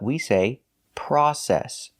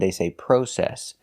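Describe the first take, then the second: First: The first vowel sounds like 'ah'. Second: The first vowel sounds like 'oh'. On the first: This is the American pronunciation. "in America, we say process. We're using the short O, which makes the sound ah" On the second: This is the British pronunciation. "In England, they say process"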